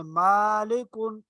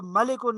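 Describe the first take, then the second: First: मालिकुन with the first ā drawn out slowly; teacher shows the correct long मालिकुन; lengthened ā. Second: मलिकुन with a short clipped first a, quickly; teacher shows the wrong short मलिकुन; wrong short vowel. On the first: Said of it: "मलिकुन नहीं पढ़ेंगे". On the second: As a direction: say मलिकुन fast, no lengthening. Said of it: "इसको मलिकुन नहीं पढ़ेंगे". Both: Shown as a demonstration.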